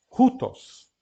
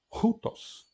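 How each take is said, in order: First: Rutos said out loud, higher and louder; spoken model. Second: Rutos breathed out unvoiced with an aspirated h. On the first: Teacher saying Rutos aloud after whispering it. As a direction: announce Rutos boldly with an aspirated h. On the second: Teacher whispering Rutos to show aspiration. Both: Shown as a demonstration. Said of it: "significa que nós vamos aspirar".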